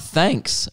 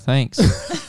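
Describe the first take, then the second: First: It is said in an ordinary, unbored tone. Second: It is said in a flat, bored tone. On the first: The speaker calls it wrong. "Oh, sorry" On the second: The speaker calls it right. "I'll read that again. ... Michael said in a boring voice"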